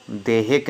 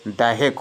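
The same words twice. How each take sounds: First: "देहिक" with a close e first; wrong form demonstrated. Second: "दैहिक" with an open ai first; correct form demonstrated. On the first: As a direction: open "देहिक" as de. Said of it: "देहिक नहीं होता है". ("देहिक" में ए की मात्रा) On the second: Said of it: "दैहिक होता है". ("दैहिक" में ऐ की मात्रा) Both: Shown as a demonstration.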